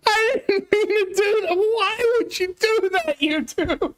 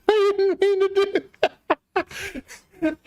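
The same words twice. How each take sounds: First: Whiny distress. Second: High, slow, laughing through the words; embarrassed laugh. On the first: Streamer to chat after a misclick, near tears. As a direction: wail it like a real mistake hurts. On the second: Streamer to chat after a misclick, laughing in embarrassment. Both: Real, not acted.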